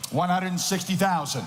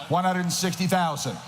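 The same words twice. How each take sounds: The two takes are said the same way.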